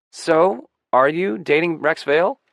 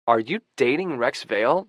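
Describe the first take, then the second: First: Louder, higher, eager prying; pressing question. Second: Mildly astonished, nosy question; wide-eyed question. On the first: Young friend presses narrator about the boyfriend, insistent. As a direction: push the question, loud and high. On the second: Young friend who overheard the call, wide-eyed. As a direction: ask with a touch of wide-eyed wonder. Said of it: "his eyes wide". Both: A narrator's reading.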